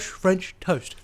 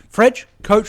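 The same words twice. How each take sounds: First: Said in the usual way. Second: "French coach" pitched up and louder, ending in ch; playful garbled "French coach"; mispronounced toast. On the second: Shown as a demonstration. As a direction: say "coach" with a k start and ch end. Toying with a muddled dialect name.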